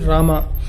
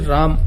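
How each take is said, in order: First: It is said the southern Indian way. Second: It is said the northern Indian way. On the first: "In the south we say" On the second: "in the north they say"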